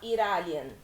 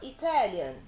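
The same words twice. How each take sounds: First: The middle t sounds like a quick r. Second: The middle t is a clear t sound. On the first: The speaker calls it wrong. "a gente não fala Italian" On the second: The speaker calls it right. "a gente fala Italian"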